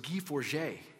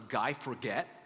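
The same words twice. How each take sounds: First: It is said with a French pronunciation. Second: It is said with an English pronunciation. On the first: The speaker calls it right. "but it was Guy Forget" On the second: The speaker calls it wrong. "I thought it was Guy Forget"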